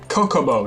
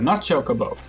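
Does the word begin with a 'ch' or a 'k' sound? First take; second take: k; ch. First: The word begins with a 'k' sound. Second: The word begins with a 'ch' sound. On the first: A friend claimed this pronunciation. The speaker calls it wrong. "a friend insisted that it was Kokobo" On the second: The speaker's own pronunciation. The speaker calls it right.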